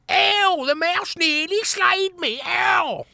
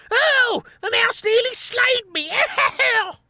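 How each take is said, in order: First: High mock whining wail; imitating whining. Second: Very high whiny rat howl; tearful howling. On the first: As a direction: ham up the rat's crying. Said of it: "his impression of the whining vermin". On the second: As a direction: howl like a crybaby. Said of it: "howling tearfully". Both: A narrator's reading.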